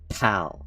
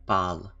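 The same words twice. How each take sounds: First: The p is said with a puff of air. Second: The p is said without a puff of air. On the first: This is how English speakers say it. "but we pronounce it pal" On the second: This is how other languages would say it. "In any other language, this would be pal"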